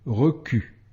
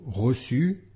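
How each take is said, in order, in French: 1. La consonne du milieu est un son k. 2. La consonne du milieu est un son s. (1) "le son QUE" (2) "le son SE"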